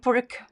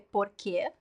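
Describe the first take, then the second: First: The final vowel is dropped, ending on a k. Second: The final syllable is said with a clear vowel. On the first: This is how it is said in Portugal. "in Portugal, it's like pork" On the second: This is how it is said in Brazil. "In Brazil, we always say porque. Very clear que sound"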